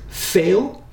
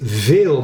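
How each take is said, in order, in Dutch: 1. Het begint met een stemloze f-klank. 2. Het begint met een stemhebbende v-klank. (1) "maar die zegt veel" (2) "Dus een Amsterdammer zegt niet veel"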